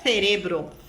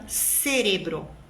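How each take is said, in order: First: The first consonant is an interdental 'th' sound. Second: The first consonant is a plain 's' sound. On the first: This is how a speaker from Spain says it. "Um espanhol diria cerebro" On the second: This is how a Colombian speaker says it. "Um colombiano, cerebro"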